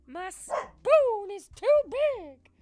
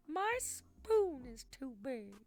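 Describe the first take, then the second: First: Very high, very loud slow shriek; shrieking meme voice. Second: Slow, high put-on voice; meme voice. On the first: Pretend. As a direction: scream the meme line. Repeats the meme line much louder. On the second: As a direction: drag out the meme line.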